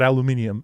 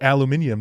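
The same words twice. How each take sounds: First: The word is said with American pronunciation. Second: The word is said with British pronunciation. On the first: "not aluminium" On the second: "a British person like Carney would call it aluminium"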